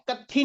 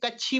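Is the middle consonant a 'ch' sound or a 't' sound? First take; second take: t; ch. First: The middle consonant is a plain 't' sound. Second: The middle consonant is a 'ch' sound. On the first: The speaker calls it wrong. "ये कत्थी नहीं पढ़ा जाएगा" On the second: The speaker calls it right. "ये कच्छी पढ़ा जाएगा"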